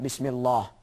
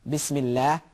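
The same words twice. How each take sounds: First: The L sound is heavy and thick. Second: The L sound is light and thin. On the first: The speaker calls it wrong. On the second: The speaker calls it right. "we recite it thin"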